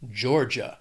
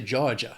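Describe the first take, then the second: First: It is said in a standard American accent. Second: It is said in a Southern American accent.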